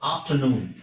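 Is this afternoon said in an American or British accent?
British. It is said in a British accent. "ಅದೇ ತರ ಇಲ್ಲೂ ಅಷ್ಟೇ"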